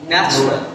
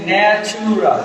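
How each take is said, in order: First: "ন্যাচারাল" as two syllables, nach-ral; dropped vowel. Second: "ন্যাচারাল" drawn out slowly as na-chu-ral; three full syllables in "ন্যাচারাল", long middle vowel; common mispronunciation. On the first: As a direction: drop the middle vowel of "ন্যাচারাল". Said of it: "unstress vowel থেকে drop করে দিব". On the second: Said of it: "আসলে কি ন্যাচারাল শব্দটা না". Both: Shown as a demonstration.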